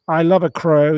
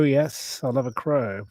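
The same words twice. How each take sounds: First: Louder, eager love for crows; loud fond declaration; gushing. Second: Fond murmur. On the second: Repeats it softly. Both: Real, not acted.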